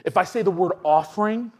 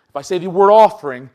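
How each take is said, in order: First: Said in the usual way. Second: Offering pushed out loud and falling; stress on offering. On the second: Shown as a demonstration. Preacher to congregation, offering said loud and falling. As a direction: lean hard on offering.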